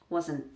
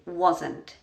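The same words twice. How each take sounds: First: The word ends with a glottal stop, no t. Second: The word ends with a clearly released t. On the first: "So I'm doing a glottal stop there" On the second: "I would pronounce it fully"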